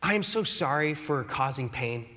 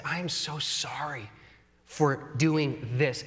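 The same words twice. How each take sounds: First: A plain, offhand blanket sorry; generic apology. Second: Genuine apology. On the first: To spouse, vague catch-all sorry, offhand. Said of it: "don't just generic it". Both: Shown as a demonstration.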